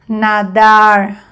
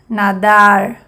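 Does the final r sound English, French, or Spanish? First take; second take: English; English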